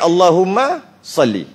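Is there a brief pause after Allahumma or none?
brief pause. There is a brief pause after Allahumma. The speaker calls it right. "lebih baik"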